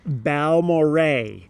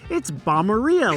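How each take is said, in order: First: The ending does not rhyme with diarrhea. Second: The ending rhymes with diarrhea. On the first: The speaker calls it right. "let's get the pronunciation right. It is Balmorhea" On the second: The speaker calls it wrong. "like diarrhea"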